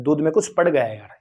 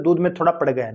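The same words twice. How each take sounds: First: दूध में कुछ पड़ गया है said casually and naturally, as people really speak; natural everyday phrasing. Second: दूध में थोड़ा पड़ गया है rattled off quickly as the awkward wrong version; wrong phrasing. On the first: Teacher showing students the correct everyday phrase, said casually. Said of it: "तो हम क्या बोलते हैं?". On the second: Teacher quickly dismissing the incorrect phrase to students. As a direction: toss off "थोड़ा पड़ गया" fast, as the phrase nobody says. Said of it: "ये थोड़ी बोलते हैं". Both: Shown as a demonstration.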